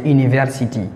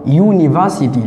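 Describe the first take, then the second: First: It starts with a French 'u' vowel. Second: It starts with an English 'you' sound. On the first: The speaker calls it wrong. "On lit comme ça directement en français" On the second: The speaker calls it right. "pour la bonne prononciation en anglais, le I là, c'est lit you"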